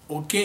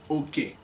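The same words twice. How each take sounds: First: It is said with the tone pattern for rat. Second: It is said with the tone pattern for share. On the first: The word means a rat. "Okay is a rat" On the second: The word means a share. "Okay is my own share"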